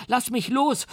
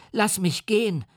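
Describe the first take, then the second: First: Put-on very high, rising child's cry; boy's scream. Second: Put-on high, frightened child's cry; boy's scream. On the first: The boy begs the monster to let go, shrill and rising. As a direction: wail it like a panicking boy. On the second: The boy screams at the monster to let him go, high and panicked. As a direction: shriek it like a terrified little boy. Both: A narrator's reading. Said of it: "schrie er".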